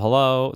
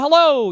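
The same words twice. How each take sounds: First: It is said at a normal conversational volume. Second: It is shouted at a very loud volume. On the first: "This is me talking in my normal conversational voice right now" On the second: "this is when I'm really loud. I'm shouting right now"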